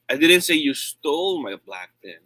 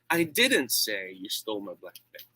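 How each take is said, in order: First: The stress is on the word 'stole'. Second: The stress is on the word 'say'. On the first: The pen was borrowed, not stolen. "I said you borrowed it" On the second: It was conveyed some other way, not said. "That means uh, I did not do that. Maybe I wrote it"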